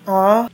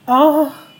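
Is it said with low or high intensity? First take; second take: low; high. First: It is said with little intensity. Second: It is said with strong intensity.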